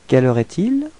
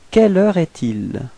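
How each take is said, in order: First: The voice rises at the end. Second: The voice does not rise at the end. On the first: The speaker calls it right. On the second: The speaker calls it wrong.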